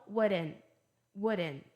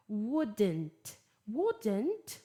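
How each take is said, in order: First: "wouldn't" American-style, T dropped; relaxed American "wouldn't" with silent T; American pronunciation. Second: "wouldn't" British-style, T clearly sounded; careful British "wouldn't", T released; British pronunciation. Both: Shown as a demonstration. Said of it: "Tô dando as pronúncias British e American".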